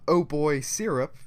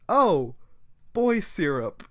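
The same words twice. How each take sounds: First: It runs together as one phrase. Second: Oh is a separate exclamation, then a pause.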